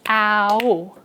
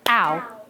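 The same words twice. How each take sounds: First: The vowel is split into two syllables. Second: The vowel glides quickly within one syllable. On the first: The speaker calls it wrong. "they do it like two syllables" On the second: The speaker calls it right. "you just do one syllable"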